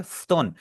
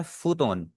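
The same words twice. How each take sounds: First: फ्तोन with the middle ऊ silent; correct pronunciation. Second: फूतोन with a full long ऊ after फ; wrong pronunciation. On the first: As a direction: clip फ्तोन so फ runs straight into तोन. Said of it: "हम बोलते हैं इसे फ्तोन". (सही उच्चारण, फ्तोन में बीच का ऊ चुप) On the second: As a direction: say फूतोन the mistaken way, vowel sounded. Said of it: "कुछ लोग गलती करते हैं". (ग़लत उच्चारण, फूतोन में पूरा ऊ) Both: Shown as a demonstration.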